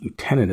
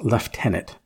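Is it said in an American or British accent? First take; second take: American; British. First: It is said in an American accent. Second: It is said in a British accent.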